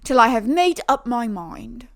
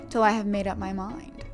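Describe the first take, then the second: First: It is read in a put-on British accent. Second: It is read in the speaker's ordinary accent.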